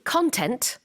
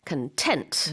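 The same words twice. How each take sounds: First: The stress is on the first syllable. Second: The stress is on the second syllable. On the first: It means material such as media content. The speaker calls it wrong. "then you're talking about something very, very different" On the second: It means pleased and satisfied. The speaker calls it right. "강세가 content. 뒤쪽에 있습니다"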